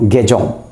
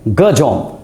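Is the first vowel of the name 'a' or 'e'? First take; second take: e; a. First: The first vowel is an 'e' sound. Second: The first vowel is a short 'a' sound. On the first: The speaker calls it wrong. "Not गेजोम" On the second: The speaker calls it right. "मेरे नाम का actual pronunciation है गजोम"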